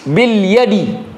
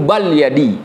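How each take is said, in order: First: The first word has an i vowel. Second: The first word has an a vowel. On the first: The speaker calls it right. "huruf jar pada ba itu harokatnya kas kasrah" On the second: The speaker calls it wrong. "Nggak boleh dibaca"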